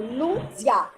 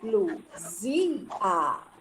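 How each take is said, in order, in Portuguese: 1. As duas últimas vogais se juntam em uma só sílaba. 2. As duas últimas vogais são separadas em duas sílabas. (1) "eu não falo Luzia" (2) "aqui eu já separo o A"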